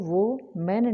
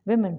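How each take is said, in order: First: The first syllable sounds like 'wo', as in woman. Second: The first syllable sounds like 'wi', as in win. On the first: The speaker calls it wrong. "इसको वो मैन नहीं पढ़ना" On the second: The speaker calls it right. "वेमेन पढ़ना है"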